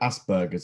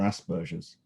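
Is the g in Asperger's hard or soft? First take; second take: hard; soft. First: The g is hard, as in burger. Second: The g is soft, like a j. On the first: This is how Americans say it. "Americans tend to call it Asperger's, as in burger made out of an ass" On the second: This is how the British say it. "the British English pronunciation is more Asperger's with a softer G"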